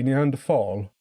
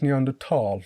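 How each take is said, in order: First: It uses the older regional pronunciation. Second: It uses the current standard pronunciation. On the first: This is how it was said locally in the past. "historically, people from my area would say Neanderthal" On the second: This is how it is said nowadays. "but I think it's Neanderthal now"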